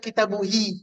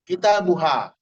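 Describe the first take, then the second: First: The word ends with an 'i' vowel. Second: The word ends with an 'a' vowel. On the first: The speaker calls it wrong. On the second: The speaker calls it right.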